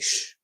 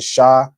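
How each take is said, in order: First: The consonant is said with no vowel after. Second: The consonant is followed by an ah vowel. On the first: The speaker calls it right. "The ah drops off from the sha" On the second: The speaker calls it wrong. "instead of saying sha"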